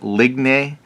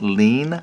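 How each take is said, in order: First: The word does not sound like 'lean'. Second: The word sounds like English 'lean'. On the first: The speaker calls it wrong. "I was calling it like ligne" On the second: The speaker calls it right. "someone said this is pronounced lean"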